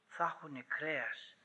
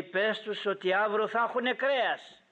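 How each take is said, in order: First: Quiet, wondering repeat; hushed echo. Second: Raised, declaring voice; acted divine announcement, pitched up; firm announcement. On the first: Real, not acted. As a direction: drop right down and let it sink in. Preacher echoes the promise quietly. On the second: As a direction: proclaim it as a promise to pass on. God's announcement, then echoed quietly.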